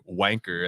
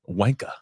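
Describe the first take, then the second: First: The final R sound is pronounced. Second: The final R sound is dropped. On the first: The speaker calls it wrong. "I pronounce the E R" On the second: The speaker calls it right. "They don't pronounce the E R"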